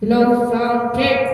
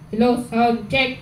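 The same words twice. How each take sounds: First: The voice has an echoing reverb added. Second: The voice sounds dry with no reverb. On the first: The speaker calls it right. "Meron din siyang adjustan ng reverb. So ito" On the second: The speaker calls it wrong. "Without reverb"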